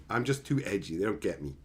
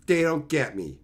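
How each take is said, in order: First: Low, softer mock-brooding; mock sulky, softer edgy loner. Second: Said in the usual way. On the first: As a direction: play the misunderstood edgelord. Mock edgy self-pity.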